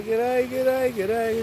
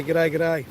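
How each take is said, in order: First: Higher, brighter Australian "G'day" said three times; cheery Aussie greeting. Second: Broad Australian g'day, g'day at usual pitch; Aussie greeting. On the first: Host coaching viewers to say g'day, higher cheery Australian. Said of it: "You say". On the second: Host teaching viewers a broad Australian g'day. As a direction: say "G'day, g'day" the way an Aussie mate would. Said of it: "So all your Aussie mates could say". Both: Shown as a demonstration.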